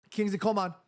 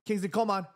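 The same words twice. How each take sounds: The two takes are said the same way.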